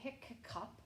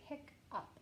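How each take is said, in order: First: The middle k sound is said twice. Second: The middle k sound is said once. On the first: The speaker calls it wrong. "You don't say hiccup" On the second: The speaker calls it right. "you say hiccup"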